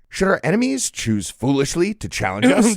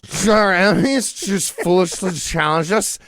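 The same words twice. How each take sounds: First: It is said in the speaker's normal voice. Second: It is said in a put-on imitating voice.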